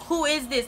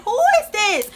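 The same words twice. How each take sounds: First: Said in the usual way. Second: Loud, high incredulous question; retold outburst of disbelief; shocked disbelief. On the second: Retold shock at his new manner.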